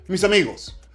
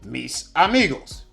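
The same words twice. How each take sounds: First: The final consonant slides into the next vowel. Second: The two words are said separately.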